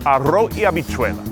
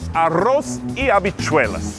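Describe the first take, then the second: First: The final S and Z sounds are dropped. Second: The final S and Z sounds are pronounced.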